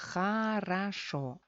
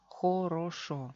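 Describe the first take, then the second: First: The unstressed vowels are reduced to 'a' sounds. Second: The unstressed vowels are full 'o' sounds. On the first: This is how it is said in everyday speech. "Sufren reducción" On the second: This is the official pronunciation. "Oficialmente se lee хорошо"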